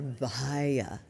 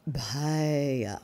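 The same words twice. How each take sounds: First: Vahaya drawn out slowly with a V; V sound. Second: Bahaya drawn out slowly with a B; B sound. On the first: Teacher giving either pronunciation, Vahaya slowly with V. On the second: Teacher giving either pronunciation, Bahaya slowly with B. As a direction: start Bahaya on a clear B, slowly. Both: Shown as a demonstration. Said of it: "V or B, either one".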